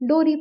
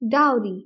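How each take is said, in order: First: The first syllable sounds like 'doh'. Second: The first syllable sounds like 'dow'. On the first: The speaker calls it wrong. "कई लोग Indian society में इसको एस डोरी pronounce करते हैं" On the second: The speaker calls it right. "दाऊ जैसे pronounce किया जाता है"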